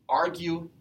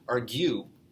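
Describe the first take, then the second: First: The stress is on the first syllable. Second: The stress is on the second syllable. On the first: The speaker calls it right. "the first syllable is the stressed one" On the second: The speaker calls it wrong. "We don't say argue"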